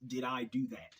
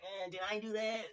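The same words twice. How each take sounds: First: Said in the usual way. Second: High, nerdy sitcom-geek voice; Steve Urkel. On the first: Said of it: "he was like". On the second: Retold or imitated. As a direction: squeak it out like a nerdy kid. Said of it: "in his little nerdy voice".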